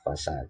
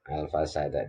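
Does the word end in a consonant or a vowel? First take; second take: consonant; vowel. First: The word ends on a consonant sound. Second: The word ends with a final vowel sound. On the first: The reading stops at this word. "kalau dibaca waqaf" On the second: The reading continues into the next word. "kalau dibaca wasal"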